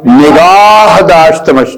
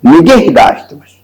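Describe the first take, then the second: First: "निगाह" with a long drawn-out aa; wrong long vowel. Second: "निगह" with a short second vowel, alif dropped; correct short vowel. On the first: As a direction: stretch the second vowel of "निगाह" slowly, breaking the metre. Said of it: "निगाह लिखेंगे तो ये मिसरा पहला वजन से खारिज हो जाएगा". ("निगाह" का आ लंबा खींचकर) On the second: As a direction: say "निगह" short, ending on h, to fit the metre. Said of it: "जब आप अलिफ हटा देंगे". ("निगह" छोटे स्वर से, अलिफ हटाकर) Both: Shown as a demonstration.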